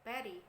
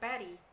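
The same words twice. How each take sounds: First: The middle consonant is a soft D sound. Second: The middle consonant is a soft D sound.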